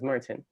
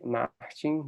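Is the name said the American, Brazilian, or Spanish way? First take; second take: American; Brazilian. First: The name has an American English pronunciation. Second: The name has a Brazilian Portuguese pronunciation. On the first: "in the U S, I just generally introduce myself as Martin" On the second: "in Brazil we say Martin. That's how we pronounce it"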